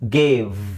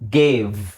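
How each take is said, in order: No difference in how they are said.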